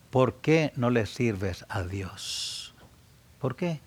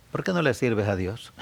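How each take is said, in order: First: Drawn out, each word weighed; slow it right down to press the point; slow pleading repeat. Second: Said in the usual way. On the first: Shown as a demonstration. Preacher pressing listeners with a slow repeated question. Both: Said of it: "repeats the question slower".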